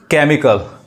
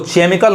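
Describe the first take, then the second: First: The word begins with a 'k' sound. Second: The word begins with a 'ch' sound. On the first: The speaker calls it right. "क पढ़ेंगे" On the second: The speaker calls it wrong. "अब इसको केमिकल नहीं कहेंगे"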